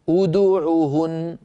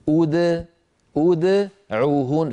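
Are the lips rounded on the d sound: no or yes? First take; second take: yes; no. First: The lips are rounded on the d sound. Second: The d sound is unrounded, with an echoing release. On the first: The speaker calls it wrong. "أن أقول ادعوهن فأضم شفتي عند نطق الدال المقلقلة" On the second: The speaker calls it right. "بل علي أن أسكنها مقلقلة هكذا"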